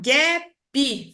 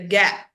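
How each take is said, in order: First: The word is said as two syllables. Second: The word is said as one syllable. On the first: "falar duas sílabas" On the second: "Para ele é um monossílabo"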